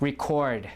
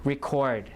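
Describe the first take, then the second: First: The stress is on the second syllable. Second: The stress is on the second syllable.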